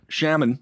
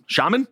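First: "shaman" with first vowel as in "sham"; shaman with short A. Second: "shaman" with broad AH, rising high; questioning SHAH-mun. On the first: Host tries out the word, "shaman" said SHAM-un. Trying two ways of saying shaman. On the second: Host checks the word, "shaman" as a high SHAH-mun question. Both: Shown as a demonstration.

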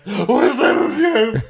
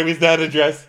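First: Much higher, slow, stretched sneer; drawn-out sarcastic yell. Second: Higher and louder sarcasm; sarcastic yell. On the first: Brandy repeating the dress jab, slow drawn-out sneer. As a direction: drag it out mockingly. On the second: Brandy asking mockingly about the dress, loud sneer. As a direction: sneer the question. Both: Retold or imitated. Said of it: "She goes".

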